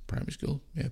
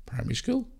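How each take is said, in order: First: Breathy echo of "Primary school"; whispered. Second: Said in the usual way. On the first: Real, not acted.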